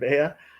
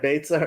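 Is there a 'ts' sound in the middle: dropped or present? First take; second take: dropped; present. First: The middle 'ts' sound is left out. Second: The middle 'ts' sound is clearly pronounced. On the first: "removed the tzaddik" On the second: "saying Beitza instead of Bea"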